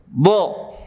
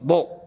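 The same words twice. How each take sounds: First: The airflow continues out through the consonant. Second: The airflow is cut off abruptly at the consonant. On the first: The speaker calls it right. "Dia harus keluar" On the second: The speaker calls it wrong. "enggak seperti ini"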